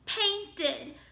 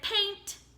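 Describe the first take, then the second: First: The ending is pronounced as an extra id syllable. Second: The ending is pronounced as a t sound. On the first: The speaker calls it right. "Let's try where it says ed at the end" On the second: The speaker calls it wrong. "if I make ed say t"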